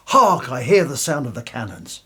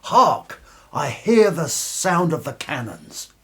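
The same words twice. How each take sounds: First: Said in the usual way. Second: Stagey line reading. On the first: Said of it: "when you're pushed on". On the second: Acted. The director demonstrates the line in a grand theatrical voice. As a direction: proclaim it like a ham actor on stage. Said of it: "all you gotta do is come on stage and say".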